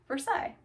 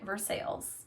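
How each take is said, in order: First: It is pronounced the way it is said in France. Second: It is pronounced the way Indiana locals say it. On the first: It refers to the place in France. "but in France, you pronounce it" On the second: It refers to the town in Indiana. "in Indiana, you pronounce it"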